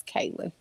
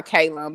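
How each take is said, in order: First: Kaylin as KAY-lin, short reduced ending; correct name pronunciation. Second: Kaylon as KAY-lawn, open ending; nickname pronunciation. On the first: Co-host correcting the nickname, Kaylin ending in "lin". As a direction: say Kaylin with a light "lin" last syllable. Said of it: "it's really not Kaylon". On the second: Co-host giving the nickname, Kaylon ending in "lawn". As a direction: say Kaylon with a full "lon" last syllable. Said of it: "We call her Kaylon". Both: Shown as a demonstration.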